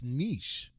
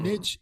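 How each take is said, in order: First: The word sounds softer, less pointed. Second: The word sounds sharp and pointed. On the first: The speaker calls it right. "It's niche. But it just doesn't sound it doesn't sound as pointed" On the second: The speaker calls it wrong. "niche is not the right pronunciation of it"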